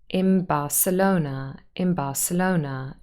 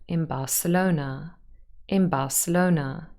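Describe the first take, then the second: Both takes have the same delivery.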